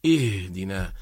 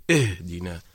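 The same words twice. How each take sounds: First: اهدنا with the h bounced sharply like qalqala; اهدنا, h hit hard and clipped; اهدنا with a jolted, bouncing h; wrong qalqala on h. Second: اهدنا, h let out smoothly without a bounce; اهدنا with a gentle airy h; correct h sound. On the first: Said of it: "إذا أخرجناها حادة أصبحت تميل إلى القلقلة". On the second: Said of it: "الصحيح أن نقول". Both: Shown as a demonstration.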